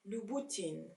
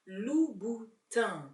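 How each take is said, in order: First: The last syllable ends with an 'in' vowel. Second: The last syllable ends with an 'un' vowel. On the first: The speaker calls it wrong. "It is not in" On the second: The speaker calls it right. "it's un"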